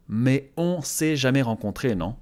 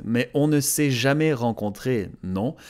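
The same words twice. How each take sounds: First: "on s'est" run together with no ne; skipped ne. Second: "ne" sounded as its own syllable after "on"; full negation with ne. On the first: Learner showing her natural way, ne skipped in "on s'est". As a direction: drop the ne between "on" and "s'est". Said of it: "she skips the ne". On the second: Learner reading the correct subtitle, "ne" fully sounded. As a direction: keep the "ne" in "on ne s'est". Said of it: "The subtitle is correct". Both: Shown as a demonstration.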